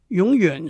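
The word is pronounced with Mandarin sounds. "在国语永远是双声"

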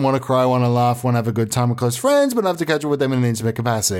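It is said in his natural accent.

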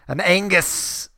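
It is said in a put-on Scottish accent.

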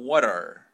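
It is said in an American accent. "El gringo es más como"

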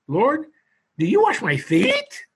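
The question is asked in an astonished tone. It is a rhetorical question full of surprise.

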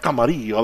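It is said with an exaggerated Spanish-style pronunciation. The speaker calls it wrong. "You don't have to put that stank on it, like Camarillo"

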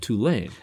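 It is said the Northern way. The speaker calls it wrong. "Those of us up north are probably saying Tulane"

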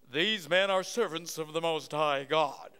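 It is said in a nice, pleasant way.

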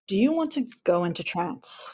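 The question sounds confident and deliberate. The speaker means it and knows what they are doing. "It's just the tonality and the pauses were in different places"

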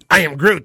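It is said in a hostile, angry tone. Go away, I want nothing to do with you. "the I Am Groot translation, fuck off, and be like"

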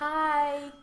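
It is said in a whiny voice.

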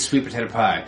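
The three words run together as one word. The speaker calls it right. "Has to be pronounced as one word"

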